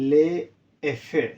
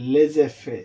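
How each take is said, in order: First: The words are said separately without a z sound. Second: The words are joined by a linking z sound.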